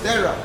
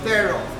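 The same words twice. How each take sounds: First: The ending has a weak 'uh' vowel. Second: The ending has a full 'or' vowel. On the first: The speaker calls it right. "It's terror" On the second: The speaker calls it wrong. "it is not terror as you pronounce it, it's not terror"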